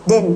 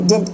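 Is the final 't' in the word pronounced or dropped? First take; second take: dropped; pronounced. First: The word is reduced to 'din' without the t. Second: The word is said in full with the final t. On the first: "in fact आप डिन ही कर देते हैं बस" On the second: "डिडंट होता है basically"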